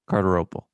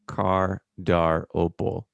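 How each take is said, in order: First: The name is said quickly. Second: The name is said slowly.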